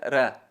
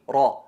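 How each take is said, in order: First: The r is light, with a thin, clear vowel. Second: The r is heavy, with a dark, full vowel. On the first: "la atenuada" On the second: "la enfatizada"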